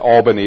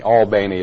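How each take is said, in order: First: It is pronounced the way New Yorkers say it. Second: It is pronounced the way Georgians say it. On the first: "Albany is how they pronounce it in New York" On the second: "Albany is how they pronounce it over there"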